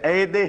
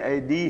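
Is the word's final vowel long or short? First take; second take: short; long. First: The word ends without a long final vowel. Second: The word ends with a long final vowel. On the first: The speaker calls it wrong. "پھر اے دے ہم نہیں کہتے" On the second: The speaker calls it right. "اے دی ہم کہتے ہیں، وہ یہ پھر پروناؤنس ہوتی ہے"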